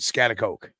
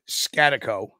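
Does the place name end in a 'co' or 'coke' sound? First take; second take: coke; co. First: The name ends in a full 'coke' sound. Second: The name ends in a short 'co' sound. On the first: This is how some other people say it. "some other people will pronounce it Scatacoke" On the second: This is the older local way of saying it. "The old timers will pronounce it Scatico"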